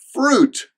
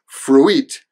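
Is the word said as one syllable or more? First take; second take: one; more. First: The word is said as one syllable. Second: The I is voiced, adding an extra vowel. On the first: The speaker calls it right. "It's fruit. There's one syllable" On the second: The speaker calls it wrong. "don't pronounce the I. It's not fruit"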